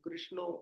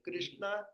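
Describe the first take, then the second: First: The name ends in an 'o' vowel. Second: The name ends in an 'a' vowel. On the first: The speaker calls it wrong. "ऐसा नहीं" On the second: The speaker calls it right. "ऐसा ये सही है"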